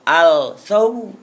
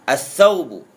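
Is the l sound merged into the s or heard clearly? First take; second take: clear l; merged. First: The l sound is heard clearly before s. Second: The l merges into a doubled s. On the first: The speaker calls it wrong. "Tidak boleh dibaca al-saubu" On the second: The speaker calls it right. "seakan-akan lamnya tidak ada"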